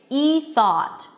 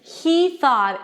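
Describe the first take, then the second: First: The H sound at the start is dropped. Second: The H sound at the start is pronounced. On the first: The speaker calls it wrong. "I cannot say E thought. No, I have to pronounce the H here" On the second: The speaker calls it right. "I have to pronounce the H here"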